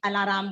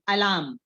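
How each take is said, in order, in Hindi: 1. r और m के बीच एक अतिरिक्त स्वर डाला जाता है। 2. r और m बिना किसी स्वर के जुड़ जाते हैं। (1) "पर सब लोग अलाराम बोलते हैं" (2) "तो हमें अलार्म बोलना चाहिए"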